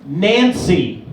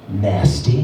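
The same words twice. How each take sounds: First: Low-pitched put-on reply; old stripper correcting. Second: Very low put-on voice; old stripper. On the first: Old stripper customer correcting her name, low voice. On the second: Old stripper customer giving her name, low voice. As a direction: drop right down for a worn-out stripper. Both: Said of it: "And she goes".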